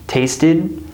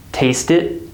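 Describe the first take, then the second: First: "tasted" ending in a voiced d; final D. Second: "Taste it" ending in a voiceless t; final T. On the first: Teacher compares for students, final d sound. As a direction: keep the voice going into the d of "tasted". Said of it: "there is d". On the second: Teacher compares for students, final t sound. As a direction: stop "it" short on a crisp t. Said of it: "here we have a T sound". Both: Shown as a demonstration.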